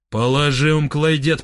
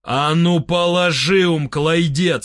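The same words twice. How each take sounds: First: Restrained demand at normal volume. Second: Firm order in a full voice. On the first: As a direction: insist without raising the voice. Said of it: "потребовал я". (сдержанное требование) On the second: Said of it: "сказал я в полный голос". (приказ в полный голос) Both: A narrator's reading.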